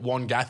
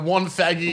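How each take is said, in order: First: The name has a 'g' sound in the middle. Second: The name has a 'th' sound in the middle. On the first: The speaker calls it wrong. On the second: The speaker calls it right.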